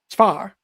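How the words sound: Fire is said with one syllable, Southern accent.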